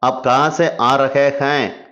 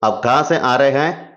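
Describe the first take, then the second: First: Every word is pronounced clearly and fully. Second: The words are run together and reduced. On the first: "அப்படி நம்ம சொல்றோம் இல்லையா?" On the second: "ஆனா பேசும்போது, ... இப்படி தான் சொல்லுவாங்க"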